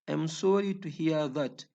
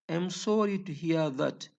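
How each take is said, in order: The two takes are said the same way.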